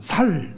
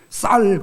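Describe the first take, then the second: First: The first consonant is plain and soft. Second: The first consonant is tense and strong. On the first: This is how a Gyeongsang speaker says it. "쌀 그러면 살" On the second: This is the standard pronunciation. "경상도 사람들이 쌀이라는 말을 발음 못해요"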